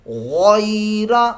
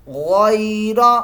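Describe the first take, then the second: Both takes have the same delivery.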